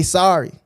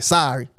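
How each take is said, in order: First: A gentler, softened sorry. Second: A sulky, grudging sorry with spice on it; sorry with attitude. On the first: Child finally apologising to classmate, softened and gentler. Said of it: "you soften the heart a little bit". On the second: Child forced to apologise on the playground, sulky attitude. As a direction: drop the sorry low and curt, a kid who doesn't mean it. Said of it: "with a little spice on it". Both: Retold or imitated.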